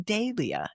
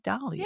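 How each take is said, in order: First: It uses the British pronunciation. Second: It uses a non-British pronunciation. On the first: The speaker calls it wrong. "the Brits say Dahlia" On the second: The speaker calls it right. "I want to say Dahlia"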